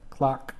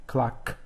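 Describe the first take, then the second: First: Said in the usual way. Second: "Clock" with the final K released sharply, no voice; unvoiced K. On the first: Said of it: "I'll do one of each for you". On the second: Shown as a demonstration. Teacher showing an unvoiced ending, "Clock" with released K. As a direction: pop the last K of "Clock". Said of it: "and that's unvoiced".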